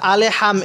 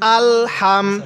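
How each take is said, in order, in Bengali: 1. L এর পরে একটি অতিরিক্ত স্বরধ্বনি বসানো হয়। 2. L, H এর সাথে কোনো স্বরধ্বনি ছাড়াই যুক্ত হয়। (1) "এখানে অনেকে আমরা আলে হাম এরকম করে পড়ি, এরকম করে পড়ব না"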